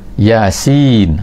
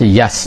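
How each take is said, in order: First: Each letter is said by its full name. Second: The letters are read together as one short word. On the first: This is the unusual way the Quran reads it. "macam tu kan" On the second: This is how Arabs would normally read it.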